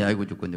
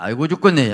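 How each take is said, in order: First: 아이고 stressed, dropping back to a normal level moan; fading groan. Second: A loud wailing 아이고 죽겠네 with 죽겠네 stressed; mock groaning Jacob. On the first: Acted. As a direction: let the second 아이고 죽겠네 sink into a weary moan. Repeat of Jacob's groan, softer. (힘 빠진 신음처럼 가라앉혀) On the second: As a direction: wail it like a man with a broken hip. Jacob voiced groaning in pain. (엉덩뼈 부러진 야곱처럼 크게 앓는 소리로)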